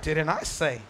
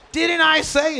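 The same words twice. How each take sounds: First: Lower, quieter knowing echo; God's calm reply. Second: Louder, higher mock scolding; exasperated parent. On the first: Retold or imitated. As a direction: answer back calmly and wryly. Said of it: "And he's like". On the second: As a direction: complain like a frustrated parent. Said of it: "You're like".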